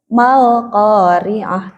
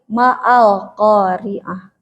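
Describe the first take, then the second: First: The words run together with no glottal catch. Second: A glottal catch separates the two words. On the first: The speaker calls it right. "Ketika ada kata sebelumnya langsung" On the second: The speaker calls it wrong. "tidak ... tidak begitu"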